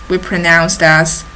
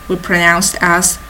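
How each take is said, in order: Both takes have the same delivery.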